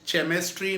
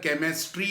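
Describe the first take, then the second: First: The word begins with a ch sound. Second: The word begins with a k sound. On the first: The speaker calls it wrong. "चेमिस्ट्री नहीं है" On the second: The speaker calls it right. "केमिस्ट्री है"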